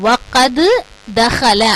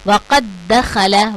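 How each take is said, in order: First: The first d is released separately before the second. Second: The first d merges into a doubled second d. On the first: The speaker calls it wrong. "அப்படின்னு ஓத மாட்டோம்" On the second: The speaker calls it right. "நம்ம இதுகாம் செஞ்சு"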